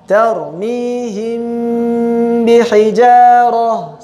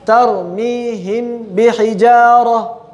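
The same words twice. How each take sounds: First: The nasal m sound is held long. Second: The nasal m sound is cut short. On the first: The speaker calls it right. "tapi ditahan" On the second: The speaker calls it wrong. "Jangan tergesa-gesa, ... Tidak seperti itu"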